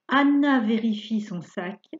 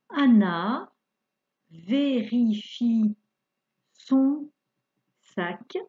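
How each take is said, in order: First: It is read at a faster pace. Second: It is read at a slow pace.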